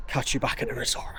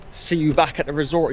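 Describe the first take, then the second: First: Breathy whisper to camera; whispered aside. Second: Mock quote. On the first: Real, not acted. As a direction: murmur it under the breath. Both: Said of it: "he says".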